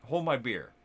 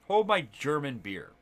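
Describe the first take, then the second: First: Said in the usual way. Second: Slowed down, leaning on "Hold" and "German"; slower punchline. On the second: Retold or imitated. Friend topping his own boast, slow and deliberate. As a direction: draw out "Hold my German beer" for the joke. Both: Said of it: "And he's like".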